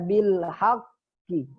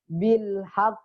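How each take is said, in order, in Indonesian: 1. Q terakhir memantul ke bunyi 'i'. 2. Q terakhir berhenti tanpa gema. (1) "Kalau berhenti jangan dibaca bil haqqi" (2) "Jangan dibaca bil haq"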